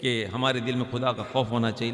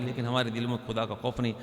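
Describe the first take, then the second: First: Said in the usual way. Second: A quieter, regretful "ہمارے" with the line dropping away; softer lament. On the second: Shown as a demonstration. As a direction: say it as a soft rueful admission. (نرم، افسوس بھرا لہجہ)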